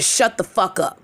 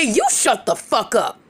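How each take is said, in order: First: Said in the usual way. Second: "You" hit first and hardest, the rest falling away; stress on YOU. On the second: Retold or imitated. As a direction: throw it back with the weight on "You". Throwing the retort back at her.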